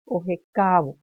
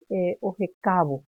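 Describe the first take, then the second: First: Ojecavo said louder with the stress on the a; stressed syllable. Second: Said in the usual way. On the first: Shown as a demonstration. Teacher marking the accented vowel: Ojecavo, the a stressed. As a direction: lean on the a of Ojecavo. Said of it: "acá en la A". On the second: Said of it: "la vocal tónica es la A".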